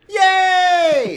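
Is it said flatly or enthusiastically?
enthusiastically. It is said with lots of enthusiasm.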